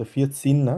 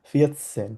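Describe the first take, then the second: First: ফিয়েট সিন with a long ee in সিন; wrong vierzehn quoted. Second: ফিয়েট সেন with an open e in সেন; correct vierzehn. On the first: Teacher quoting the wrong vierzehn sound. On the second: Teacher modeling the correct vierzehn sound. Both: Shown as a demonstration.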